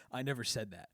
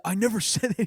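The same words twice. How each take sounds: First: Flat, quiet, deadpan denial; quiet deadpan I never said that; dead serious denial. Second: Higher, louder, laughing through never; mock-indignant I never said that, breaking into a laugh; doubling down. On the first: Retold or imitated. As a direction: deny it with a straight face. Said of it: "he acting dead serious". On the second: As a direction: insist again, cracking up on never. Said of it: "He starts, starts doubling down".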